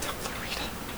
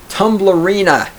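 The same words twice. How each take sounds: First: Tumblerina whispered softly. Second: Tumblerina said with relish, falling; savoring the word. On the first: Streamer savoring his new word, whispered. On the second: Streamer relishing his new word, Tumblerina said with relish. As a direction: land "Tumblerina" proudly. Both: Shown as a demonstration. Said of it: "It's a good one".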